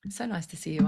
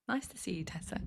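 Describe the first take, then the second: First: Said in the usual way. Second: Soft unvoiced whisper of a greeting; hushed, breathy greeting aside. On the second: Real, not acted. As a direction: whisper the hello so it barely carries. Greets viewer while off mic.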